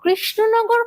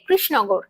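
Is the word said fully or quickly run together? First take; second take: fully; run together. First: The word is said slowly with every sound clear. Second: The word is said fast with its sounds blurred. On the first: "পুরোপুরি" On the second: "তাড়াতাড়ি উত্তর দিতে গিয়ে"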